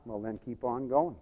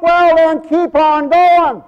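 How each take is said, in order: First: Low, soft urging; quiet exhortation. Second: High, loud, drawn-out preacher's shout; shouted exhortation. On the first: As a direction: urge them on gently, voice well down. Soft take before shouted repeat. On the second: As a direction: holler it slowly to the whole congregation. Shouted repeat of soft exhortation. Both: Real, not acted.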